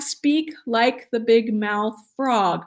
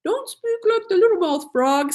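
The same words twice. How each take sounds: First: Slow, wide-open mouth shaping each word; big mouth frog. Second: Higher, pinched little-mouthed voice; little mouth frog. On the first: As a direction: open the mouth wide and let words roll out slowly. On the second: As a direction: squeeze the words through a tiny mouth. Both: Shown as a demonstration.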